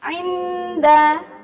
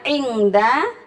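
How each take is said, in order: First: The nasal is a soft, partial 'ng' sound. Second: The nasal is a full, clear 'ng' sound. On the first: The speaker calls it right. "tapi inda" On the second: The speaker calls it wrong. "Bukan ingda"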